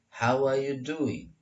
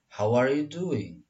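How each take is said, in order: First: "how are you doing" as "how-wah-you doing"; R not heard. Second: Slow "how are you doing" with "how are" as "howar"; words joined. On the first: Teacher gives the alternative, R not heard. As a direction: drop the r from "are". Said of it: "R-nya nggak kedengaran menjadi". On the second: Teacher models the joined question, words joined. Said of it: "Jadi disatukan". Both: Shown as a demonstration.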